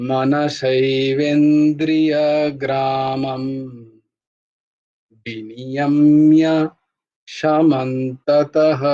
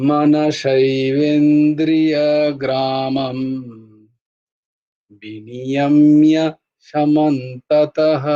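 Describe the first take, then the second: Both takes have the same delivery.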